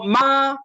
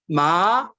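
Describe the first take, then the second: First: The pitch stays high and level. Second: The pitch rises from middle to high. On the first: It means mother. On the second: It means hemp cloth.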